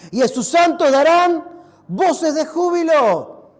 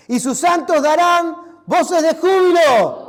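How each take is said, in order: First: Proclaimed aloud. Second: Slow, much louder joyful shout. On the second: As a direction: cry it out like praise filling the church. (gritar con júbilo, lento y fuerte) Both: Shown as a demonstration. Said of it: "Para, no me escucharon".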